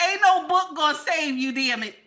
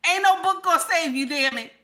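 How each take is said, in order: Both takes have the same delivery.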